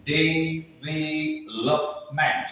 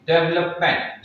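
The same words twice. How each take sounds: First: development drawn out very slowly, each syllable apart. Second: Said in the usual way. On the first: Shown as a demonstration. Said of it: "जब आप development को पूरा बोलेंगे". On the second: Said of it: "पूरा बोलेंगे".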